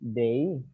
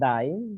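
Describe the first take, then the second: First: The vowel sounds like the one in 'day'. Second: The vowel sounds like the one in 'die'. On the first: The speaker calls it right. "Remember, it's day" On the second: The speaker calls it wrong. "not die"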